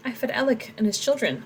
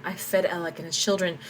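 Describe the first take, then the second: First: "Alec" pitched higher and leaned on; stress on Alec. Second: Said in the usual way. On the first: Shown as a demonstration. Tomas blaming Alec before the soldiers, stress on Alec. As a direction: punch the name Alec. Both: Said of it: "italicize this to put emphasis on Alec".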